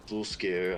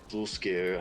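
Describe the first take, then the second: First: The name is pronounced in a garbled way. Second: The same.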